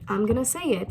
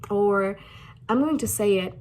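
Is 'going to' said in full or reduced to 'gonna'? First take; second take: reduced; full. First: Going to is reduced to gonna. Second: Going to is said as two full words.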